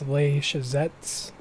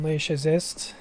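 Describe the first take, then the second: First: The name ends with a 'ts' sound. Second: The name ends with an 'st' sound. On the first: The speaker calls it right. "So T S, not S T" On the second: The speaker calls it wrong. "I'm pretty sure I've been saying it wrong"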